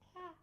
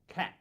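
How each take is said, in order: First: It is said in a high-pitched voice. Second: It is said calmly in a normal voice.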